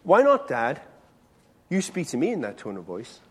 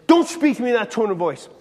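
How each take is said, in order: First: Retold teenage retort. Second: Mildly cross dad's reprimand; firm, slightly raised rebuke, re-enacted; retold scolding. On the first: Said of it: "And Andrew said to me". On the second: Dad telling off his teenage son for his tone, mildly angry. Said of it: "used to make me really mad".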